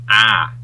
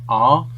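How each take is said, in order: First: The vowel is the Australian 'ar' sound. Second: The vowel is a non-Australian 'ar' sound. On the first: The speaker calls it right. "So it's another very, very distinct sound" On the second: The speaker calls it wrong. "it's not ah"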